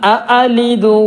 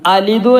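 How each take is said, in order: First: The word begins with two separate 'a' syllables. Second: The word begins with a single 'a' syllable. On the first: The speaker calls it right. "എന്നാണ് ശരിക്കുള്ളത്" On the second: The speaker calls it wrong. "അലിദു അല്ല"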